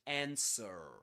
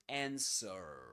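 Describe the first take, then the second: First: It is said with an American accent. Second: It is said with an American accent.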